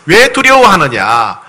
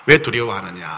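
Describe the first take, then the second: First: Sorrowful plea. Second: Soft sorrowful. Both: Shown as a demonstration. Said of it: "너무 안타까운 모습".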